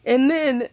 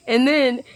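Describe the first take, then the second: No difference in how they are said.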